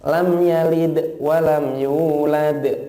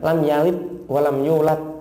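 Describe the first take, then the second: First: The stop consonants are released with a bouncing echo. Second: The stop consonants are held back without any bounce. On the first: The speaker calls it right. "Keluarkan suaranya agar mengeluarkan pantulan" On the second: The speaker calls it wrong. "jangan ... eman-eman itu"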